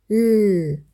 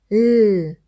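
No difference in how they are said.

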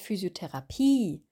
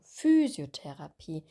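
First: The stress falls on the final syllable. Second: The stress falls on the first syllable. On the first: The speaker calls it wrong. "Wir sagen nicht Physiotherapie. Das I ist nicht betont am Ende" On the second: The speaker calls it right. "Hier ist die Betonung Physiotherapie"

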